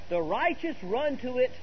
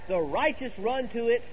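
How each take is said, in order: No difference in how they are said.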